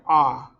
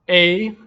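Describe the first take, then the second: First: The vowel sounds as in father. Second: The vowel sounds as in table. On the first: "like father" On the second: "like table"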